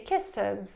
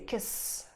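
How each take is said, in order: First: The ending has a vowel before the s. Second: The ending is a bare s with no vowel. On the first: The speaker calls it right. "So we say kisses" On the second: The speaker calls it wrong. "it would be horrible if you needed to say kiss"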